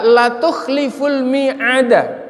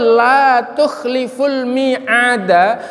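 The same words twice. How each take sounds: First: The vowel in 'la' is short. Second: The vowel in 'la' is long. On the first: God surely breaks promises. The speaker calls it wrong. "Begitu kita baca pendek" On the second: God never breaks a promise. The speaker calls it right. "zat yang tidak akan pernah ingkar janji"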